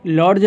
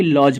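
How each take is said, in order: First: लॉज with a hard d before j, lod-j; लॉज with the d sounded; wrong pronunciation. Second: लॉज with no d sound, loj; लॉज said the right way; correct pronunciation. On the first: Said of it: "लॉज नहीं बल्कि लॉज". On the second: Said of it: "बल्कि लॉज पढ़ते हैं". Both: Shown as a demonstration.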